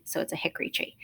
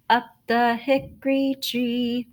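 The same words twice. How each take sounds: First: "hickory" said with all three syllables, hick-o-ry, quiet; full hickory. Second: "hickory" sung in two quick syllables, hick-ree; fast hickory. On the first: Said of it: "Usually it has an O". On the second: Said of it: "we are saying it faster than hick or re". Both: Shown as a demonstration.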